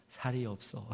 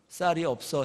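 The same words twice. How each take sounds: First: 쌀 said softly as 살, with a plain s; Gyeongsang pronunciation. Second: Said in the usual way. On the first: Retold or imitated. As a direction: say 살이 없어 with a plain s in place of 쌀. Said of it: "그럼 "살이 없어" 이래요". (쌀을 살로 발음하는 경상도식) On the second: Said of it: "집사람한테 제가 "쌀이 없어" 해보세요".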